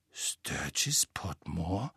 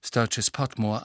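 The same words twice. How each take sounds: First: Ungläubig, ganz langsam gehauchtes „Sturgis Potmore?“ mit fragendem Anstieg; flüster den Namen zögernd und fragend; langsam geflüstert. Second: Said in the usual way. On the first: A narrator's reading. (Ron erkennt den Namen, langsam geflüstert) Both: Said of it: "sagte Ron langsam".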